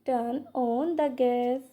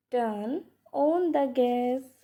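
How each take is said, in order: First: Said in the usual way. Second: "Turn" set apart, then "on the gas"; pause after TURN. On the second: Shown as a demonstration. Teacher repeating for learners, pausing after "Turn". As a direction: break the phrase right after "Turn".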